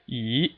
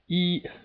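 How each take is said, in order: First: The pitch rises steadily from start to end. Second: The pitch stays high and level throughout. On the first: "the second tone is just a steadily rising tone" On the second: "It's just a straight line, and it's a very stable sound"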